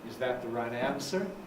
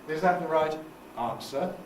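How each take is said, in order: First: Pitch stays low before the final rise. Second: Pitch stays fairly high before the final rise. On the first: "Americans tend to stay down low before they rise" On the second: "in Britain we tend to have a fairly high stuff before it"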